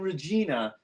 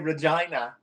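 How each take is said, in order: First: It is said with the British pronunciation. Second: It is said with the Canadian pronunciation. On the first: The speaker calls it wrong. "that's not how you say it, man" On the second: The speaker calls it right. "You say Regina"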